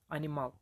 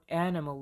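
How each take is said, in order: First: "animal" with full, evenly weighted syllables; equal syllable stress. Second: Said in the usual way. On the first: Shown as a demonstration. Teacher showing a syllable-timed language, equal stress on each syllable of "animal". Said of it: "all syllables receive more or less equal stress". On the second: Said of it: "the word animal like".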